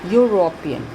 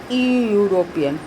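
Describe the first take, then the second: First: The word begins with a 'yoo' sound. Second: The word begins with a plain 'eh' vowel. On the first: The speaker calls it right. "We say European" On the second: The speaker calls it wrong. "We do not say e European"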